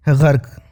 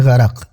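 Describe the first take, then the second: First: गर्क in one syllable, ġark; everyday गर्क, no vowel after the r; colloquial pronunciation. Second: गरक in two syllables, ġa-raq; original pronunciation. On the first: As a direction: say गर्क with r and k run together. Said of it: "पर बोलचाल में". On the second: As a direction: say गरक with a vowel between r and final q. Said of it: "जो original शब्द है". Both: Shown as a demonstration.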